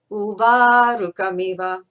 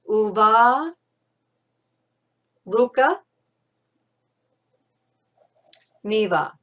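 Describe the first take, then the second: First: Uvarukamiva said as one word, slightly louder; difficult word. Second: Uva, Ruka, Miva said apart with long pauses; split in three. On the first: Teacher names the difficult word for learners. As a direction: give Uvarukamiva a clear full sound. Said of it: "a difficult word". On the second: Teacher splits the word so learners can master it. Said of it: "divide it into three". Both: Shown as a demonstration.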